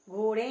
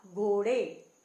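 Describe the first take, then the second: First: घोड़े with a nasal "en" ending; wrong nasal ending. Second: Said in the usual way. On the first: Shown as a demonstration. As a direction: wrongly say घोड़े as gho-ren, through the nose. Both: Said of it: "ए की आवाज नहीं आ रही है".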